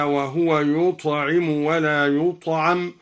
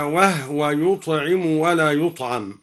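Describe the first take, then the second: First: Said in the usual way. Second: وهو as wahwa with silent h; Duri reading. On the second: Shown as a demonstration. (بإسكان هاء وهو) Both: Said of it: "هكذا".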